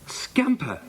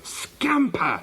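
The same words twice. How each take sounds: First: High-pitched cry of amazement; amazed. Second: High-pitched furious call to the dog; shouted. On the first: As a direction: call the dog's name in high, astonished disbelief. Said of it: "said Janet in amazement". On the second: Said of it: "she shouted". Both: A narrator's reading.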